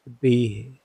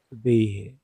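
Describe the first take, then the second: No difference in how they are said.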